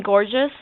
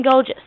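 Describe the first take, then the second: First: Said in the usual way. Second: "gorgeous" said as "goh-jus"; put-on British "gorgeous" without the r; accented pronunciation. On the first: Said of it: "I mean gorgeous". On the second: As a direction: say "gorgeous" with a long o in place of "or". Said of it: "you mean gorgeous?".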